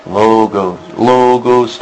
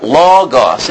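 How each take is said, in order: First: "logos" low and even, as LOH-gohs, no syllable stressed; unaccented, monotone LOGOS. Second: "logos" as LAW-gos, first syllable leaned on; stress on first syllable. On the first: Teacher mocking Greek without accents, boring even "logos". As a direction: drone "logos" lower with both syllables equal. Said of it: "If there was no accent, it'd be". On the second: Teacher showing what the accent does, LAW-gos stressed "logos". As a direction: hit the first syllable of "logos", let it fall. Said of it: "makes you accent the first syllable". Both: Shown as a demonstration.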